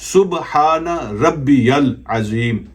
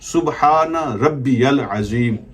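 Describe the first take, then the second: No difference in how they are said.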